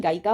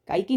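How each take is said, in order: First: गायिका ending in "-kaa"; correct word ending. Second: गायकी ending in long "-kee"; wrong word ending. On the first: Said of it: "गायिका होता है". (गायिका के अंत में "का") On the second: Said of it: "गायकी नहीं". (गायकी के अंत में "की") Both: Shown as a demonstration.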